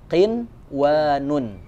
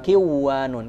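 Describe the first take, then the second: First: The n is clearly sounded before the w. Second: The n is merged away before the w. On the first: The speaker calls it right. "jadi dibacanya qinwanun" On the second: The speaker calls it wrong. "bukan kiwanun"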